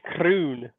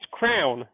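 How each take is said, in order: First: The vowel is said in a Scottish way. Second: The vowel is said in an English way. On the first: "they say it's croon" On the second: "whereas I would say it's crown"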